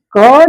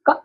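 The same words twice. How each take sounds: First: क loud and drawn out on its vowel; wrong full-vowel reading. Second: क as a very short, clipped k with hardly any vowel; letter sound. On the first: Teacher shows pupils what not to read, long क. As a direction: stretch क with a full अ. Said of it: "इसको क नहीं पढ़ेंगे". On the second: Teacher gives pupils the sound of C, clipped क. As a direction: cut क off at once. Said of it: "उच्चारण जो होगा वह होगा". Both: Shown as a demonstration.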